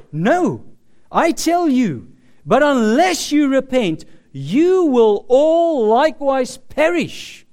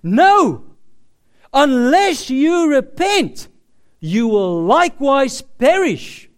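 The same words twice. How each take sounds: First: Firm, louder preached quote; quoting Jesus with rising force; emphatic warning. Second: Louder, slower stern warning; repeating the warning forcefully; emphatic repeat. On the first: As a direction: press each word of the warning. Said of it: "when he says". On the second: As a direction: drive it home harder. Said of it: "he repeats this word for word". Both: Retold or imitated.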